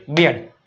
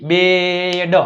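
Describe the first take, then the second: First: Said in the usual way. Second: બેડ with a long held vowel and separate ડ; blending sounds. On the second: Shown as a demonstration. Teacher repeating બી ઈ ડી, બેડ stretched. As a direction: hold બેડ long, then release ડ. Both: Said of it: "બી ઈ ડી".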